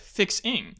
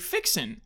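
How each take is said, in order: First: The word ends with the final g sound. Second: The word ends without the final g sound. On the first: "instead of fixing" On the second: "Drop your G's. Say your words as if there is no G at the end"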